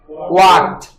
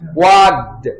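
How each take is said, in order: First: The ending sounds like t after a k. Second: The ending sounds like d after a g. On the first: The speaker calls it right. "the second form becomes walked" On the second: The speaker calls it wrong. "If you say wagged, then this K is pronounced as G"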